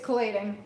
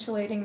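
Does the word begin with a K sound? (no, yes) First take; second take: yes; no. First: The word begins with a K sound. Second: The word does not begin with a K sound. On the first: The speaker calls it right. "You say it like it's a K" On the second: The speaker calls it wrong. "I've been saying chillating now for a little while"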